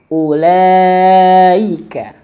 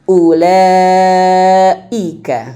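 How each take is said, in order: Both takes have the same delivery.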